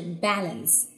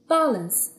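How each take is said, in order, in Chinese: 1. 它是用美式口音读的。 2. 它是用英式口音读的。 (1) "如果是美式发音的话是" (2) "比较典型的英音"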